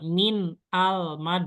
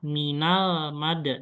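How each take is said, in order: First: Min and al are said as separate words. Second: Min and al are joined into one word. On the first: The speaker calls it wrong. "nah itu agak ribet ya" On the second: The speaker calls it right. "langsung dibacanya disambung ya"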